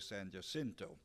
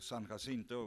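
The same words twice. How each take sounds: First: The name has this area's local pronunciation. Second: The name has the San Antonio pronunciation. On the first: "so I'll have to say San Jacinto" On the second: "that's the way we pronounce it in San Antonio"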